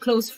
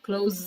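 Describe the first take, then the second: First: The word ends with a hissing s sound. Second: The word ends with a buzzing z sound. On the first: Near or intimate. "pay attention to Z and S" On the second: To shut something. "pay attention to Z and S"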